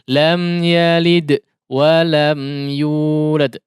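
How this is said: It breaks off with a gap after yalid. The speaker calls it wrong. "Putus di sini"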